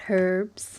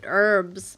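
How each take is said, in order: First: The word begins with a clear H sound. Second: The word begins without an H sound. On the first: This is how the speaker says it. "They don't put much emphasis on the H" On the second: This is how Americans say it. "I think Americans pronounce it herbs"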